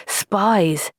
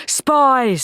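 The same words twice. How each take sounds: First: Said in the usual way. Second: Higher, heated "Spies,"; angry. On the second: Acted. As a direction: spit out "Spies," in anger. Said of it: "quivering with anger".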